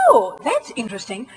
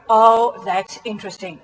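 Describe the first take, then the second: First: It is said in a genuinely curious, lively tone. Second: It is said in a flat, unconvinced tone.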